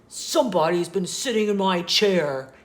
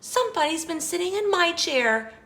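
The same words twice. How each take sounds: First: The voice is loud, deep and growly. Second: The voice is soft, gentle and sweet. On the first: "he said in his loud, growly voice" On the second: "she exclaimed in her sweet, low voice"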